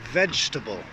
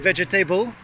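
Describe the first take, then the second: First: The word is said with three syllables. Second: The word is said with four syllables. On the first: The speaker calls it right. "this one's three syllables like comfortable" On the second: The speaker calls it wrong. "Not vegetable, Way too many syllables there"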